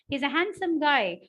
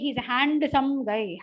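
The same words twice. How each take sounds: First: The d in handsome is not pronounced. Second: The d in handsome is clearly pronounced. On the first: The speaker calls it right. "The D is swallowed" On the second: The speaker calls it wrong. "I don't say"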